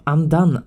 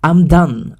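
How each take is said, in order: First: Said in the usual way. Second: Loud, fed-up blurt; real exasperation, punched out; exasperated outburst. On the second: Real, not acted. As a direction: throw your hands up and say it loud. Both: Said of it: "I'm fucking done".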